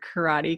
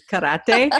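First: The r is a plain English r. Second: The r is a short trilled r. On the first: The speaker calls it wrong. "I'm always scared of saying the word karate" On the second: The speaker calls it right. "do you have to say it with that little trill?"

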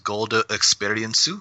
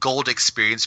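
First: It is said Japanese-style, with extra vowels added. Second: It is said with English sounds, no added vowels.

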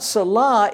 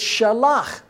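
First: The word begins with an s sound. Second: The word begins with an sh sound. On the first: The speaker calls it wrong. "not Salah" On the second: The speaker calls it right. "it's Shalach"

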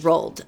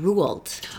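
First: The name is said as Americans say it. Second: The name is said as the family says it. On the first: This is how Americans commonly say it. "every American I've ever met says Roald" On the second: This is how the author's own family says it. "she pronounced her grandfather's name Roald"

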